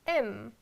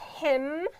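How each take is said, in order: First: The word is said in a reduced form. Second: The word is said in its full form. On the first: "omitting some sounds" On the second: "Not him"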